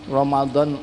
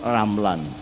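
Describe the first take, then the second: First: The middle consonant is the Arabic dhad sound. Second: The middle consonant is replaced by an L sound.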